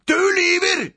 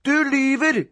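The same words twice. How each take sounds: First: Higher, loud shriek; screamed accusation. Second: Put-on high, indignant child; accusing cry. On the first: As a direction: scream the accusation at full pitch. Boy repeats accusation louder. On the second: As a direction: fire the accusation at your brother. Boy accuses brother in quarrel. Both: A narrator's reading.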